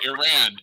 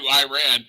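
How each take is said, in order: First: It does not sound like 'I ran'. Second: It sounds like the phrase 'I ran'. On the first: The speaker calls it right. "say it properly and say Iran" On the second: The speaker calls it wrong. "as opposed to Iran"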